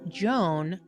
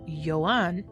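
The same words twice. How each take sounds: First: The name is said the American English way. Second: The name is said a non-American way. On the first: The speaker calls it wrong. "Americans, you do not say this" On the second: The speaker calls it right. "This is Joan"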